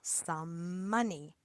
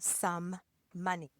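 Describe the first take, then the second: First: A single m sound joins the two words. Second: Two separate m sounds are pronounced. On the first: The speaker calls it right. "We make one mm sound" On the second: The speaker calls it wrong. "We don't say some money"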